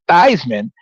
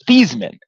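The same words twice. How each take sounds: First: The name rhymes with Heisman. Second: The name does not rhyme with Heisman. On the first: This pronunciation was adopted to help win an award. "if you change your name to the pronunciation to Theismann" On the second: This is the family's original pronunciation. "his last name is actually pronounced Theismann"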